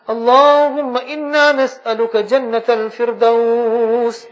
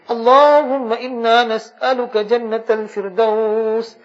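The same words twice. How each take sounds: The two takes are said the same way.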